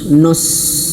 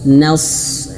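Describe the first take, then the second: First: The syllable is said thick and heavy. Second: The syllable is said thin with spread lips. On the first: The speaker calls it wrong. "Jangan nos" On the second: The speaker calls it right. "bukan nos tapi na. Bibirnya kita senyumkan dulu"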